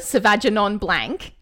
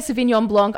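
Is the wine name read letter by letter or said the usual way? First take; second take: letter by letter; usual way. First: The name is read out literally as spelled. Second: The name is said the usual, non-literal way. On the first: Someone else said it this way. The speaker calls it wrong. "It's honestly like phonetic" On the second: This is the intended standard name. The speaker calls it right. "when I say Sauvignon Blanc"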